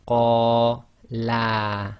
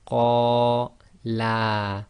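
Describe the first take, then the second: The two takes are said the same way.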